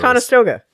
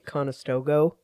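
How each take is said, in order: First: The name is pronounced the way locals say it. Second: The name is pronounced exactly as it is written. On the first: The speaker is from the area. "but if you're from around here" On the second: The speaker is not from the area. "you can tell somebody's not from around here when they say"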